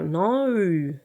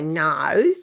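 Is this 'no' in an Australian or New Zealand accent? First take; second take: New Zealand; Australian. First: A softer vowel set further back in the mouth. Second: A sharper, more clipped Australian vowel. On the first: "Kiwis would go no. It's much more sort of, softer" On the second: "if you're in Queensland, I suppose you might say no"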